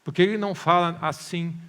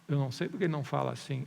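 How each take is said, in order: First: Loud mock complaint; raised-voice questioning; impatient demand. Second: Quick, unbothered reply; brisk, toned-down concession; matter-of-fact admission. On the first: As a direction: challenge it like a frustrated believer. Voices the listener's demand again. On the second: Shown as a demonstration. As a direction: brush the question off calmly and fast. Preacher's own answer, same words.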